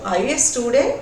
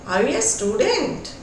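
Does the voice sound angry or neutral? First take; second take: angry; neutral. First: It is asked in an angry voice. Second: It is asked in a calm, neutral voice.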